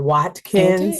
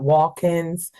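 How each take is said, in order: First: The name is said carefully, each sound enunciated. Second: The name is said casually, sounds run together. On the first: The speaker calls it right. "we are ... I always uh, enunciate that a bit" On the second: The speaker calls it wrong. "we're not"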